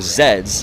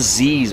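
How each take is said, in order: First: The word is said as zeds. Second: The word is said as zees.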